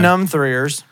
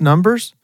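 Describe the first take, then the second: First: The middle is said with a 'three' sound. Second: The middle is said with a plain 'b' sound. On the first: The speaker calls it wrong. "He was in Numb-Threers" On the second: The speaker calls it right. "I think it's pronounced Numbers"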